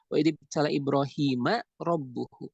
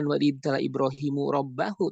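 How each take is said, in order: First: Ibrahim ends in a, and rabb in u. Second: Ibrahim ends in u, and rabb in a. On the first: Abraham is the one being tested. The speaker calls it right. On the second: Abraham is the one doing the testing. The speaker calls it wrong.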